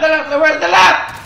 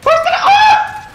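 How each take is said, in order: First: Said in the usual way. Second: High, slow shout cracking into laughter; panicked laughing shout. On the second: Real, not acted. Lost in the game, shouting to her teammate, panicked laughing shout. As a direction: scream the question through a laugh.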